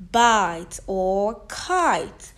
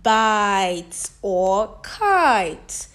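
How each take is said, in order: First: Slow repeat of the demo; slow stretched words. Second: Slow, loud vowel demo; slow stretched words. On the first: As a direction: bite or kite said very slowly. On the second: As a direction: bite or kite said very slowly and louder. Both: Shown as a demonstration. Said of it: "as in".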